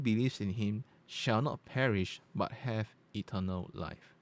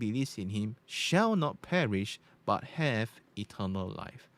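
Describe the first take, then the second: First: The voice has a natural, unaltered tone. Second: The voice has a bright, treble-boosted tone. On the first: "let's change to natural" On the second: "That's on bright"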